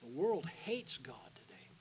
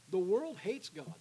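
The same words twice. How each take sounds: First: Slow, hushed whisper, no voice; solemn whisper. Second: Slow and weighty, leaning on world; emphatic declaration. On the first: Real, not acted. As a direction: let it sink in with a whisper. Preacher drops to solemn whisper. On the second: Shown as a demonstration. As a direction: hammer home that the world hates God. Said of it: "No, I'm being honest with you".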